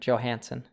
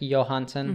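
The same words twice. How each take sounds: First: The name is said in an American way. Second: The name is said in a Scandinavian way. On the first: The speaker calls it right. "we pronounce the J, you know, like a like an American" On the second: The speaker calls it wrong. "like in Scandinavia"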